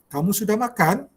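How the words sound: The voice rises at the end like a question.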